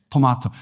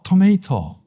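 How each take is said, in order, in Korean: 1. 가운데 모음은 'mah'처럼 발음합니다. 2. 가운데 모음은 'may'처럼 발음합니다.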